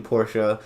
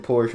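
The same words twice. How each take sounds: First: "Porsche" slowly in two syllables, por-shuh; final e sounded in "Porsche"; German pronunciation. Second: "Porsche" as one syllable, porsh; American "Porsche" with silent final e; American pronunciation. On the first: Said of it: "I can do that". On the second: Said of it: "I've said Porsche most of the time". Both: Shown as a demonstration.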